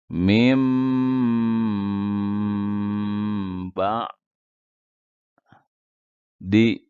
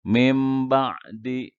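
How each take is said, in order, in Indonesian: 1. Bunyi sengau m ditahan sekitar tiga detik. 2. Bunyi sengau m pendek, tanpa ditahan. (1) "tahan M-nya sampai banyak tiga detik" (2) "Tidak boleh dibaca eh, ... gunahnya tidak ada"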